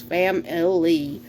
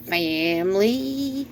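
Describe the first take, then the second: First: FAMILY in three distinct syllables, fam-uh-lee. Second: FAMILY stretched out as faaam-leee, middle syllable dropped; two-syllable drawled family. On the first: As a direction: say "family" slowly, sounding out all three syllables. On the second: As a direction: drag "family" into two long mock syllables. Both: Shown as a demonstration. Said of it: "family with three syllables".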